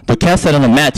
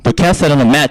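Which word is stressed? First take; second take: mat; mat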